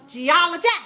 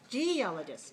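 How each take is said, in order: First: The stress is on the third syllable. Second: The stress is on the first syllable.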